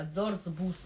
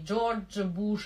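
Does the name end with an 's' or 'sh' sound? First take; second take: s; sh. First: The name ends with a plain 's' sound. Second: The name ends with a hushing 'sh' sound. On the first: "Греки не говорят, не шипят" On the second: "не Джордж Буш"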